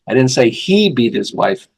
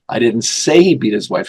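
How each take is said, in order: First: The stress is on the word beat. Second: The stress is on the word say.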